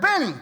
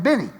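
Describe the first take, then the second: First: Name called high and firm; sharp call. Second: Said in the usual way. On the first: Retold or imitated. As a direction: snap his name to get attention. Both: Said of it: "Now I'm getting ticked".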